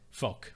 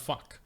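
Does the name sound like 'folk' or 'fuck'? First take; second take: folk; fuck. First: The name sounds like 'folk'. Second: The name rhymes with 'luck'. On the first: The speaker calls it right. "it's pronounced it's Bernard F O K K E Folk" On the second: The speaker calls it wrong. "it was like fuck, like Bernard Fuck"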